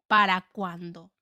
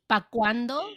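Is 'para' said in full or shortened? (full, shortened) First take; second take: full; shortened. First: The word para is said in full. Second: The word para is cut short to pa.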